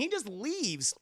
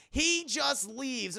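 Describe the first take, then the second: First: Said in the usual way. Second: "He just leaves" slow and higher; emphatic repeat. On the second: Real, not acted. Recapping the husband walking out, slow stressed "He just leaves". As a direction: draw out "He" and "leaves" in disbelief.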